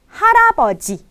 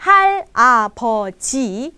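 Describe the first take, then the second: First: Harapoji with a tapped r, pitched higher; harapoji, r tapped, rising high; correct take. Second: Halapoji with an l sound, slow; halapoji, l instead of r, slowly; wrong take. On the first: Teacher giving the right harapoji, higher and clear. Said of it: "tapi harapoji". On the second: Teacher showing the wrong halapoji, slow l. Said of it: "Bukannya halapoji". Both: Shown as a demonstration.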